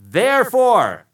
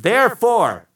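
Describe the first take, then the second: First: Therefore said slow, loud and high; drawn-out therefore. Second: Therefore rung out loud and high, falling; proclaimed therefore. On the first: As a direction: stretch out Therefore for effect. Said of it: "and it's on the screen". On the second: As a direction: announce Therefore like a toast. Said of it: "he says". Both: Shown as a demonstration.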